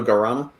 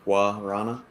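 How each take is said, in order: First: The first syllable is said like 'gur' without W. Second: The first syllable starts with a W sound. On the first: "exactly like that" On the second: "I guess I do that as a W"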